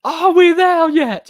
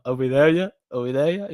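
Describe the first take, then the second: First: High, loud, slow whiny squeal; drawn-out high nagging wail; whiny Donkey. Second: Said in the usual way. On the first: Retold or imitated. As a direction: whine it up high like a pestering kid. Quoting Donkey's whining line.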